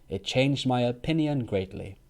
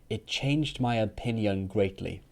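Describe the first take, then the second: The two takes are said the same way.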